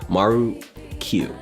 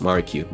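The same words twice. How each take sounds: First: The name is said at a slow pace. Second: The name is said at a fast pace.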